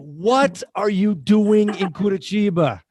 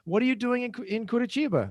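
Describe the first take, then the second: First: It is asked in a surprised, disbelieving tone. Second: It is asked in a plain, neutral tone. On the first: The speaker cannot believe the person is there at all. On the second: The speaker asks what activity the person is doing there.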